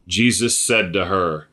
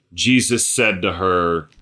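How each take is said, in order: Both takes have the same delivery.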